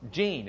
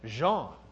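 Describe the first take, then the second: First: The name is said the Lubbock, Texas way. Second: The name is said the French way.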